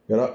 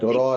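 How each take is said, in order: First: The syllable ends with an abrupt cut. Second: The syllable flows smoothly without a stop. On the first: The speaker calls it right. "it cuts in your sound" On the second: The speaker calls it wrong. "that's something nice and fluid and, and flowing"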